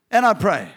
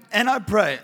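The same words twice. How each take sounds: The two takes are said the same way.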